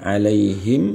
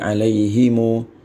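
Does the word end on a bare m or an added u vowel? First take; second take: bare m; u vowel. First: The word ends on a closed m sound. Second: The final m is followed by a u vowel. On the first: "Asalnya kan alaihim" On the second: "Mimnya di di di diwasalkan dengan diharokati dhammah"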